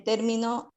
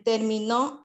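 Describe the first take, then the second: First: Término said with the stress on mi, as termino; stress on second syllable. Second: Terminó said slowly with the stress landing on the final nó; slow demo of stress on the final syllable; stress on last syllable. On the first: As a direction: lean on the middle syllable mi of término. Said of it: "el acento de voz está en la segunda sílaba". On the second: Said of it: "el acento de voz recae en la tercera sílaba". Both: Shown as a demonstration.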